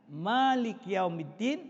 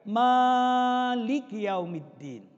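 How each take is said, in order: First: The first vowel of Malik is kept short. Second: The first vowel of Malik is drawn out long. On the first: The speaker calls it right. "cukup dua harokat, dibaca qasar" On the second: The speaker calls it wrong. "ma-nya itu dibaca panjang"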